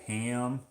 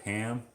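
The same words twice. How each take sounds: First: "ham" with a stretched, tensed vowel, like hay-um; "ham" with the A raised and gliding; American-accented ham. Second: Said in the usual way. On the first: Shown as a demonstration. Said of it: "a lot of Americans will say". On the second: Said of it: "instead of ham".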